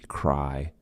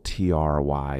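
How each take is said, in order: First: "cry" meant as "try", opening on CH then R, like "chry"; CH plus R. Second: "try" with a clean true T, kept apart from the R; true T before R. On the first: Teacher showing how TR really sounds, CH plus R. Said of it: "acha plus R". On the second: Teacher showing what TR is not, true T. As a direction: say "try" with a plain aspirated T, no CH. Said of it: "is not gonna be try". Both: Shown as a demonstration.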